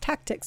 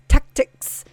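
First: The k sound is said plainly. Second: The k sound is hard and exaggerated. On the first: The speaker calls it wrong. "just tactics" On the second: The speaker calls it right. "No, it's tactics. Very hard"

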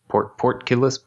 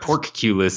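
First: The first syllable sounds like 'port'. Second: The first syllable sounds like 'pork'. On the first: The speaker calls it right. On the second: The speaker calls it wrong.

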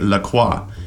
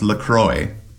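First: Croix is said with a 'wa' sound, like croissant. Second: Croix is said with an 'oy' sound, like enjoy. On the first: This is the standard French pronunciation. The speaker calls it right. "In French, you say La Croix" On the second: This is the brand's own pronunciation. The speaker calls it wrong. "the company, has said it's supposed to be pronounced La Croix"

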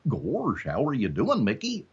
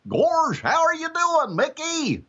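First: It is said at an ordinary close-range volume. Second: It is called out loudly to someone far away.

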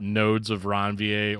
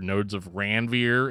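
First: Ranvier is said without a flat Midwest A. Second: Ranvier is said with a flat Midwest A.

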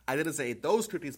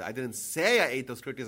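First: The word those is stressed. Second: The word say is stressed. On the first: The speaker ate other cookies. "but maybe other ones" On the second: The speaker only thought it. "I might have thought of it"

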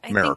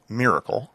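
First: The first syllable sounds almost like 'mare'. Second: The first syllable does not sound like 'mare'. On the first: "So like M-A-R-E almost" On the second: "But it's actually miracle"

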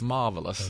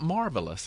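First: The word is said without an R sound. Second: The word is said with an R sound. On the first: The speaker calls it right. "There's no R in it" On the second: The speaker calls it wrong. "It's not marvelous"

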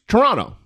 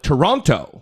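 First: The second t sound is dropped. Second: The second t sound is clearly pronounced. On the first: "they don't pronounce that second T. It's just Toronto" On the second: "We call it Toronto"

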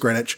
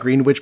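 First: Some written letters of the word are dropped. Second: Every written letter of the word is pronounced.

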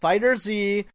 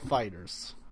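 First: It ends with a separate letter name 'zee'. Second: It ends with a plain 'z' sound, like 'fighters'. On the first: The speaker calls it wrong. "not Fighter Z" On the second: The speaker calls it right. "It's Dragon Ball Fighters"

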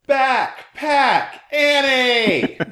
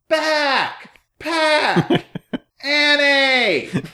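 First: It is yelled at ordinary loudness, words run together. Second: It is yelled louder, each word said separately. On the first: "then he said it again" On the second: "like even louder, pronouncing the words individually"

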